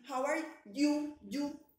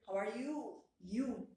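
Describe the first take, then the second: First: "How are you, you?" with you said twice, stiffly and separately; "you" spoken as two clumsy, slow, stretched beats; wrong split you. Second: "How are you, you?" with you run together, smooth and relaxed; one flowing, natural "you". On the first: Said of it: "Ustedes no me dicen a mí". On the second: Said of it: "No, ustedes me dicen". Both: Shown as a demonstration.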